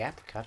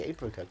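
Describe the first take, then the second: First: "apricot" with a short A, as in apple. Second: "apricot" with a long A, as in ape. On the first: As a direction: say "apricot" starting like "app". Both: Shown as a demonstration. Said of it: "I like to say apricot".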